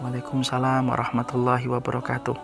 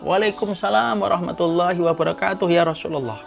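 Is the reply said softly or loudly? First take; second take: softly; loudly. First: The reply is said softly. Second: The reply is said loudly.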